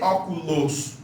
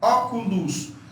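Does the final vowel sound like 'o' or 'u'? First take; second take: o; u. First: The final vowel sounds like 'o'. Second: The final vowel sounds like 'u'. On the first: The speaker calls it wrong. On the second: The speaker calls it right.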